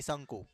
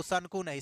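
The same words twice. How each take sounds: First: शंकु said correctly as shankoo, soft and low; correct pronunciation. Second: शंकु said the wrong way, the way a student might say it; wrong pronunciation. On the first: Teacher correcting the class on शंकु, softly. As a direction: give the right शंकु quietly. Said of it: "शंकु नहीं, शंकु". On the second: Teacher showing students a wrong शंकु. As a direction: say शंकु wrong on purpose, then reject it. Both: Shown as a demonstration.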